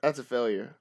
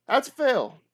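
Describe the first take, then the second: First: Said in the usual way. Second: Higher, louder mock-dismayed call; excited exclaim. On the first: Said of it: "reads out the failed roll". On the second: Real, not acted. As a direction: announce the failure with a burst of energy. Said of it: "reacts to the failed roll".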